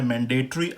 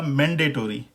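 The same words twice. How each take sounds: First: मैंडेटरी as man-day-tree; no o before r in मैंडेटरी; British pronunciation. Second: मैंडेटरी as man-day-tor-ee; full tory ending on मैंडेटरी; American pronunciation. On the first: Teacher shows the tree ending, British pronunciation. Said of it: "British pronunciation में वो है". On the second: Teacher shows the American change, American pronunciation. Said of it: "American pronunciation में ये हो जाएगा". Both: Shown as a demonstration.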